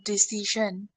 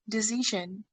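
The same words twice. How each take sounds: First: The middle consonant is not a zh sound. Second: The middle consonant is a buzzing zh sound. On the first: The speaker calls it wrong. "it's not decision" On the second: The speaker calls it right. "Ja sound"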